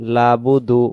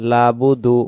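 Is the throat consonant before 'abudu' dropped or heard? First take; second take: dropped; dropped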